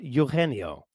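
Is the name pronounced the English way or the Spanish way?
Spanish. The name is said with Spanish sounds. "or para español"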